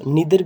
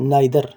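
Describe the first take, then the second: First: The first vowel sounds like 'ee'. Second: The first vowel sounds like 'eye'. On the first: "आप इसको नीदर भी कह सकते हैं" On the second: "इंग्लिश में एक वर्ड है नाइदर"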